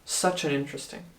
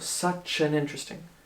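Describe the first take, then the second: The two takes are said the same way.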